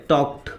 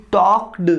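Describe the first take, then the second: First: टॉक्ड as one clipped syllable ending in a short "t"; correct ending. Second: टॉक्ड drawn out slowly with a full separate "ed" syllable; टॉक्ड slowly with a full "-ed" syllable, as a learner wrongly says it; wrong full ending. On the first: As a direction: say टॉक्ड the right way, "tokt", with no extra syllable. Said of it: "ये ऐसे होगा". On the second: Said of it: "टॉक्ड पूरा बोल देते हो, ये नहीं होता है". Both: Shown as a demonstration.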